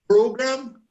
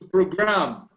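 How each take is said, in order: First: The stress is on the first syllable. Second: The stress is on the second syllable. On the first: It is used as a noun. "a computer program" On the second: It is used as a verb. "program a computer"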